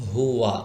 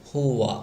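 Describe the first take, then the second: Both takes have the same delivery.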